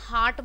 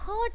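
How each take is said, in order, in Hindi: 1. स्वर एक लंबा खुला 'ah' है। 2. स्वर एक छोटा बीच का 'uh' है। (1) "यहाँ पे हम हार्ट बोलते हैं" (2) "हर्ट नहीं बोलते हैं"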